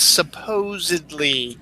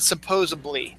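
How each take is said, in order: First: The word is said with a d sound. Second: The word is said with a b sound. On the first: The speaker calls it right. "The proper term is supposedly" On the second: The speaker calls it wrong. "It's not supposedly"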